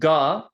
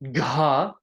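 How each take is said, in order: First: The consonant is said without a puff of breath. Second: The consonant is said with a puff of breath.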